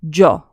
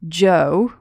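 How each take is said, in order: First: The O vowel is short and sharp. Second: The O vowel is drawn out long. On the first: The speaker calls it right. "it's short and sharp" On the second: The speaker calls it wrong. "to say Joe with a long O sound"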